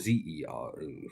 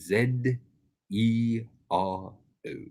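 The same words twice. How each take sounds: First: Z is said the American way, zee. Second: Z is said the British way, zed.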